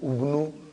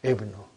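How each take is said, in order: First: The word begins with a u vowel. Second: The word begins with an i vowel. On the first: The speaker calls it wrong. "I will never say" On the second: The speaker calls it right. "It is always Ibnu"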